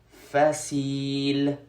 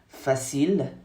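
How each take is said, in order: First: The i vowel is drawn out long. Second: The i vowel is short and normal.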